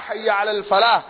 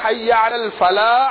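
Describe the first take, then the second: The two takes are said the same way.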